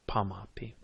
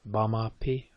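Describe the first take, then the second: First: The word starts with a voiceless P sound. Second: The word starts with a voiced B sound. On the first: This is how southern speakers say it. "or in the south, that P" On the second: This is how northern speakers say it. "If you're in the north, they tend to favor that B"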